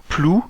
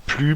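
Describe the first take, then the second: First: "Plou" with an "oo" vowel; tentative pronunciation. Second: "Plu" with a French u; alternative pronunciation. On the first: Vlogger unsure of the creature's name, "Plou" with "oo". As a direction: try "Plou", rhyming with French "vous". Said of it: "je pense que ça se dit Plou". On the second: Vlogger testing the creature's name, "Plu" with French u. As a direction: try "Plu", rhyming with French "vu". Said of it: "je pense que ça se dit". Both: Shown as a demonstration.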